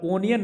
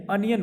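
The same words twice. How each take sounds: First: ओनियन with a rounded "oh" at the start; the usual Indian ओनियन, "oh-nee-un"; wrong onion. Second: अनियन with an open short "uh" at the start; अनियन said as "uh-nee-un"; correct onion. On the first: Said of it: "ओनियन नहीं". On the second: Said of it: "अनियन बोलना है". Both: Shown as a demonstration.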